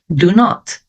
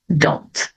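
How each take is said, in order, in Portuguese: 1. É dito como duas sílabas separadas. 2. É unido em uma única sílaba. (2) "na conversa, a tendência é juntar"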